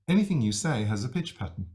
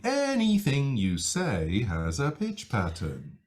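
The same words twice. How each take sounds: First: The pitch moves only slightly up and down. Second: The pitch moves widely up and down.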